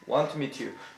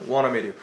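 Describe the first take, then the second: First: Both words of 'want to' are clearly pronounced. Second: 'Want to' is blended together as 'wanna'. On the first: "영국 사람들은 want to를 분명히 발음할 거고" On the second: "미국 사람들은 wanna라고 발음할 거고"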